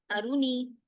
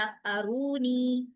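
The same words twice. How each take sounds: First: आरूनी rushed with the वाव dropped; read too fast. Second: आरूनी with the रू held long; careful full आरूनी; correct reading. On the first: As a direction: clip आरूनी short. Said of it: "अगर मैं इसको तेजी से पढ़ूंगी". (तेज़ी से, वाव गिराकर आरूनी) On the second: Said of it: "सही पढ़ा". (सही, लंबा रू वाला आरूनी) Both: Shown as a demonstration.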